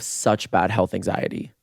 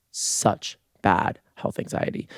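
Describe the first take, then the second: First: Said in the usual way. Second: Slow, spaced-out "such, bad"; hushed, deliberate stress on SUCH and BAD; each word punched separately. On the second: Real, not acted. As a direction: land on SUCH, then BAD, slowly. Repeats it slowly for emphasis.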